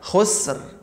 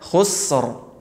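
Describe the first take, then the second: First: The final r sounds light and thin. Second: The final r sounds heavy and thick. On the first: The speaker calls it wrong. "bukan khusr" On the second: The speaker calls it right. "bunyinya khusr"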